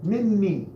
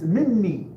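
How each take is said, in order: The two takes are said the same way.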